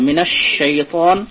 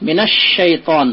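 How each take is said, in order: First: মিনাশ শাইতান slow, the শ doubled; slow recitation. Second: মিনাশ শাইতান with the lam merged into a doubled শ; slow recitation. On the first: Teacher repeating the merged lam example. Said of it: "শিনের উপর তাসদিদ আছে". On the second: Teacher demonstrating the merged lam. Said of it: "লাম তারিফের ইদগাম হয়েছে". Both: Shown as a demonstration.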